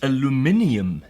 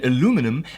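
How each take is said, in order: First: It is said with a British pronunciation. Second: It is said with an American pronunciation. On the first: "as the British say" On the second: "as the Americans say"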